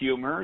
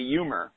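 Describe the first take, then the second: First: The word begins with an h sound. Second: The word begins with a vowel, no h. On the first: "you don't say the word humor" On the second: "You drop the H and say humor"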